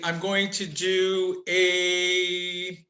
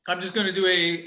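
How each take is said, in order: First: "going to do a" drawn out word by word; slow, careful restart. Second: Said in the usual way. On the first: Real, not acted. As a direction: stretch out "I'm going to do a" very slowly. Restarts the same phrase slowly.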